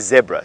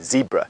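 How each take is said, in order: First: It is said with a South African pronunciation. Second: It is said with a North American pronunciation. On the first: "if you come from South Africa ... we say zebra" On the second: "you are one hundred percent correct in saying zebra. That's how North Americans uh, pronounce zebra"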